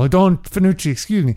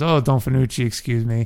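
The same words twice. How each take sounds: First: It is said in a fearful tone. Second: It is said in a neutral tone.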